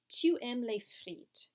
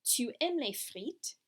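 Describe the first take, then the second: First: "Tu aimes les frites" as a statement, slowly, falling at the end; statement intonation. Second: "Tu aimes les frites" asked slowly, rising on "frites"; question intonation. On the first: French teacher models the sentence as a statement, falling tune. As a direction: let "frites" drop like a period. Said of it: "if we have the statement". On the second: French teacher turns the statement into a question, rising tune. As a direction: lift "frites" into a question mark. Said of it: "change the punctuation to a question mark". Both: Shown as a demonstration.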